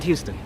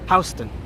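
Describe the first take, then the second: First: The first syllable sounds like 'hue'. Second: The first syllable sounds like 'house'. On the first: This is how the city in Texas is said. The speaker calls it wrong. "not Houston" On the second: This is how New Yorkers say the street name. The speaker calls it right. "it is pronounced Houston, as in house"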